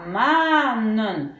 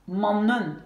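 First: MANNEN avec un A très étiré, «maa-nen»; A long. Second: MANNEN avec un A bref, «man-nen»; A court. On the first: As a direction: allonger fortement le A de MANNEN. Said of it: "je prononce comme un long A". (MANNEN, première voyelle longue) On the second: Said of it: "pour que ça reste". (MANNEN, première voyelle brève) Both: Shown as a demonstration.

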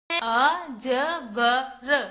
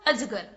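First: अजगर drawn out very slowly, each syllable separate: अ-ज-ग-र. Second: Said in the usual way. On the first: Shown as a demonstration. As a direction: spell out अजगर slowly for the children. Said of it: "कौन कौन से अक्षर से मिलकर बना है". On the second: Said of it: "क्या बना बच्चों?".

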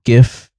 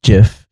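First: GIF with a hard g; a hard g at the start of gif. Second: JIF with a j sound; a soft g at the start of jif. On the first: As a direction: say gif as in gift. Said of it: "my rationality is that gif is computer stuff". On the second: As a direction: say jif like jiffy. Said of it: "jif is for peanut butter sandwiches". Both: Shown as a demonstration.

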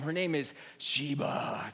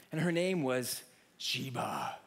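First: Slow, heavier and more ominous; ominous repeat. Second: Slow, dark and ominous; ominous reveal. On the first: Preacher repeating the dog's name for effect, slow and ominous. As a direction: let the name send chills. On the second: Preacher telling the congregation about the scary dog, slow and ominous. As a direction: drop the name like a threat. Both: Shown as a demonstration. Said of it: "Let me say that one more time".

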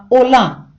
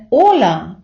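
First: «ола» with the final а punched; stress on last syllable. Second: «ола» with the first vowel, о, punched; stress on first syllable. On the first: Teacher showing foreigners' mistake, «ола» stressed on the final а. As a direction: wrongly push the stress onto the last vowel of «ола». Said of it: "з наголосом на «а»". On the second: Teacher showing the correct greeting, «ола» stressed on the о. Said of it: "правильний наголос на «о»". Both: Shown as a demonstration.

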